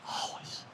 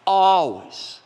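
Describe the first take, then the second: First: Always breathed in a whisper. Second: Always punched loud and high; stress on always. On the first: Preacher repeats always to the congregation in a whisper. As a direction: drop always to a hush. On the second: Preacher drives home the word always, loud. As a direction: hit always hard and loud. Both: Acted.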